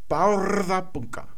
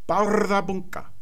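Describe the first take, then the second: The two takes are said the same way.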